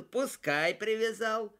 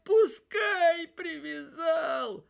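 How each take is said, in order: First: Said in the usual way. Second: Slow, high sobbing wail with a shout; crying shout. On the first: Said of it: "ответил". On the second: A narrator's reading. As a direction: cry it out through tears, slowly. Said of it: "А он плачет и говорит".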